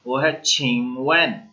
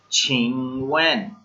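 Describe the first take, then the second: First: Said in the usual way. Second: छिंगवेन said slowly, syllable by syllable, chhing-wen with falling tune; slow model word. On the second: Shown as a demonstration. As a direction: spell out छिंगवेन slowly for the class. (छिंगवेन धीरे धीरे, साफ़ उच्चारण के साथ) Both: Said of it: "इसकी pronunciation क्या थी".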